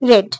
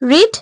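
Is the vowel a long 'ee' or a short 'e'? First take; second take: short e; long ee. First: The vowel is a short 'e' sound. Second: The vowel is a long 'ee' sound. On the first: It means reading in the past. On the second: It means reading now.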